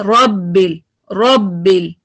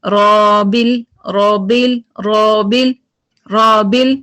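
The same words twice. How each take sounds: First: रॉबिल with the breath cut on रॉ, a little lower; correct, clipped रॉबिल; breath stopped. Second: रॉबिल with the air flowing on, the first slow; wrong रॉबिल with continuous breath; breath continued. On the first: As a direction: stop the air sharply after रॉ. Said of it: "लेकिन ये क्या है". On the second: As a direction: let the breath run through रॉबिल. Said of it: "अगर इसको continue रखे तो क्या होगा". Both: Shown as a demonstration.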